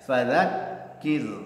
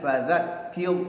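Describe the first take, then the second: First: The k sound is doubled and pressed. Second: The k sound is short, without extra pressure. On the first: The speaker calls it right. "kafnya ada tasydid, berikan nabrah penekanan suara" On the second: The speaker calls it wrong. "jangan fadzakir ya, salah ya"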